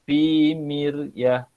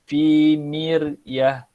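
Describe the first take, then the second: The two takes are said the same way.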